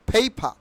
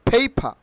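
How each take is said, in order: No difference in how they are said.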